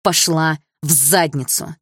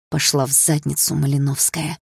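First: ПОШЛА В ЗАДНИЦУ slowly, word by word; slow, emphatic repeat. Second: Said in the usual way. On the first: A narrator's reading. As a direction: spell out «Пошла в задницу» with weighty pauses. («Пошла в задницу» медленно, с расстановкой) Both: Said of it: "отчётливо ответила я".

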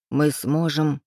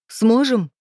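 First: Said in the usual way. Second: High, loud, hysterical echo; hysterical shriek. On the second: A narrator's reading. Woman doubting her lover's promise, shrieking hysterically. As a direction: throw the word back as a shrill hysterical question. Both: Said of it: "взвизгнула истерично".

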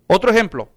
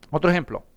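First: Said in the usual way. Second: Repeated lower and softer, Otro ejemplo drops away; quiet. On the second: Shown as a demonstration. (repetición baja y suave)

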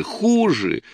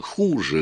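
First: "хуже" cried out on a much higher pitch; wife crying out at her husband, high; shouted out. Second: Said in the usual way. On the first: A narrator's reading. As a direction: fling "хуже" out as a sudden high cry. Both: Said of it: "выкрикнула Рая".

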